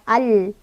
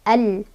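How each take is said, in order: No difference in how they are said.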